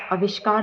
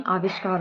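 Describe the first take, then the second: First: आविष्कार opening on short "a"; wrong pronunciation. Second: आविष्कार opening on long "aa"; correct pronunciation. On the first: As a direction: shorten the first vowel of आविष्कार. (आविष्कार का पहला "आ" छोटा बोलें) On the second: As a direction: give आविष्कार a long first aa. (आविष्कार का पहला "आ" लंबा बोलें) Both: Shown as a demonstration. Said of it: "आविष्कार होता है".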